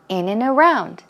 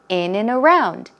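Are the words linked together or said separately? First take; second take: linked; linked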